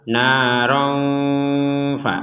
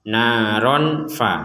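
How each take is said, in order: First: The n is softly hidden and held briefly. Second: The n is pronounced fully and clearly. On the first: The speaker calls it right. "dibaca samar naron fa, ada jeda kira-kira dua harokat" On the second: The speaker calls it wrong. "Jangan dibaca jelas naron fa, naron fa, itu jelas"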